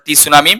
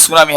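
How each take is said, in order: First: টি সুনামি with the t voiced separately; টি সুনামি as it is spelt, t first; spelling pronunciation. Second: সুনামি starting straight on s; silent t. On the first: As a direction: say "tee-sunami", sounding the first letter. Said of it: "কিন্তু এটা উচ্চারণ টি সুনামি". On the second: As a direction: say "sunami" with no t at the start. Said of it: "টিটা silent থাকবে". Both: Shown as a demonstration.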